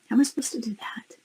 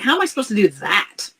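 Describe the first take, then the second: First: It is said softly and calmly. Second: It is said harshly and confrontationally.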